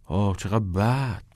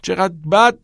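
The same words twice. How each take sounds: First: Said in the usual way. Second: Higher, louder outraged question; indignant echo. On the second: A narrator's reading. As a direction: throw the words back in disbelief. Knox indignantly echoes.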